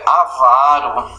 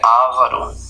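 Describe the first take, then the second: First: The stress is on the second-to-last syllable. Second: The stress is on a different syllable. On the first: The speaker calls it right. "o certo é avaro" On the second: The speaker calls it wrong. "não é ávaro"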